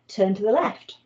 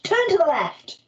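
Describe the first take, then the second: First: It is said calmly, as a plain request. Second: It is said with extra force and emphasis. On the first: It is an ordinary polite request. "piece of sort of normal, polite uh, request" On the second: The person is in danger or the speaker is cross. "would also need an exclamation mark"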